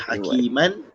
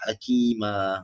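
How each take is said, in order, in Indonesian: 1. Kata ini berakhir dengan bunyi n. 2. Kata ini berakhir dengan vokal panjang. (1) "daripada hakiman" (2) "jadi apa?"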